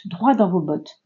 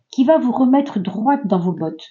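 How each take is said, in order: First: Fix it to "droit", dropping the t; self-correction. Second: "droite" said with the final t sounded, dʀwat; "droite" ending on a clear t, before she corrects herself; slip of the tongue. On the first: Tarot reader to viewers, corrects herself to "droit" without the t. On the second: Tarot reader to her viewers, first says "droite" with the t pronounced. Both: Real, not acted.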